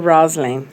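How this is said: The name is said with an Italian pronunciation. "Na Itália todo mundo me chama de"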